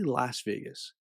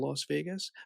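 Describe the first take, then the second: First: The first word has a vowel like 'lass'. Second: The first word has a vowel like 'loss'. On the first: The speaker calls it right. "but it's actually" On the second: The speaker calls it wrong. "They they changed the name to"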